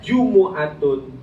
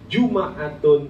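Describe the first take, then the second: First: The m is followed by a u vowel. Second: The m is followed by an a vowel. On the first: "dengan mendomahkan mim"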